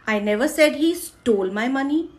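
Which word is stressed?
stole. The stress falls on the word stole. It was asked for, not stolen. "चुराए नहीं, मांगे"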